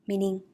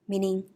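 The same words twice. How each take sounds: No difference in how they are said.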